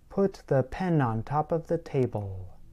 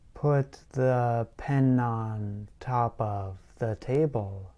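First: The sentence is said quickly. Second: The sentence is said slowly. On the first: "Then slowly increase the speed" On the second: "Start slowly, like this"

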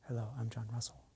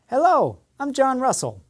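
First: The voice is quiet and low. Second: The voice is loud and strong. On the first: The speaker sounds unsure and is hard to understand. The speaker calls it wrong. "No, my volume was low" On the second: The speaker sounds confident. The speaker calls it right. "My speaking was much louder and much more confident"

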